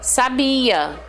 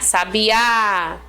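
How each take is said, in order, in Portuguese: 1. A tônica está na sílaba do meio. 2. A tônica está na última sílaba. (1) "não coloco ênfase em nenhuma parte" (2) "Oxítonas é quando a gente acentua a última sílaba, como é o caso aqui, ó, de sabiá"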